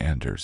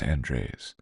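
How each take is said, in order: First: The name is pronounced like Anders. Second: The name is pronounced like Andres. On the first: The speaker calls it wrong. "It's not Anders" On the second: The speaker calls it right. "It's Andres"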